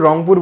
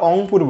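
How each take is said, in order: First: The name begins with an R sound. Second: The name begins with a vowel, dropping R. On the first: This is the standard form. "আমরা আসলে রংপুর বলি না" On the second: This is the local regional form. "আমাদের একটা এলাকার accent আছে, আমরা অংপুর বলি"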